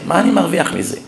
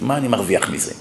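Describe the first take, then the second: First: Said in the usual way. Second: A quiet, sunken rhetorical question; low muttered question. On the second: Shown as a demonstration. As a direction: drop low and soft, asking yourself.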